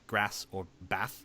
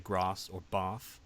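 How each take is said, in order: First: It is said in a non-posh, northern-style accent. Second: It is said in a posh, southern-style accent. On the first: "Someone not posh would say" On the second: "posh would say"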